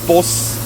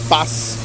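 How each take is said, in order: First: It is said with a broader Irish vowel. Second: It is said with a standard English vowel. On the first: "and I'd say bus" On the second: "You'd say bass"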